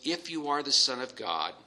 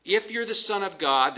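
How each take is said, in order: First: A hint of a smooth, inviting tempter; soft welcoming devil. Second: Higher and louder, leaning on the doubt; doubting challenge. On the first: Preacher voicing the devil softly welcoming Jesus, mildly coaxing. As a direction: coax it gently, like a friend. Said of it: "very soft, very welcoming". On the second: Acted. Devil challenging Jesus's sonship, higher and louder with doubt. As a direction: plant a sneering seed of doubt. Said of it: "that little bit of doubt".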